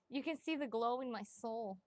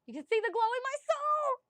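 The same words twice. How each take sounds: First: Said in the usual way. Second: High, loud, over-the-top squeal of the line; gushing exclamation. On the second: Pretend. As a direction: belt it out in a mock swoon, way up high. Gushing about new love, exaggerated repeat.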